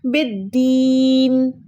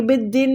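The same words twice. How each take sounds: First: बिद्दीन with a very long, chanted "deeen"; drawn-out बिद्दीन, the taught way; stretched vowel. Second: बिद्दीन cut short as "bid-din"; unstretched बिद्दीन, the wrong way; short vowel, mistaken. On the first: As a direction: recite बिद्दीन slowly, holding the ee. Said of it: "हम दाल को खींच रहे हैं". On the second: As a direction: say बिद्दीन quickly with a short i at the end. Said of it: "बिद्दीन नहीं पढ़ेंगे". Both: Shown as a demonstration.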